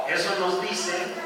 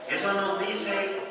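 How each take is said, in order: The two takes are said the same way.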